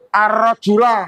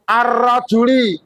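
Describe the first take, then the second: First: The word ends in an a vowel. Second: The word ends in an i vowel. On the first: "Tidak boleh ar-rajula, salah" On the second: "Tidak boleh ar-rajuli, salah"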